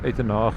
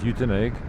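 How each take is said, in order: First: The name is pronounced with Afrikaans sounds. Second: The name is pronounced with English sounds. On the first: "In Afrikaans we say" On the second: "in English of course"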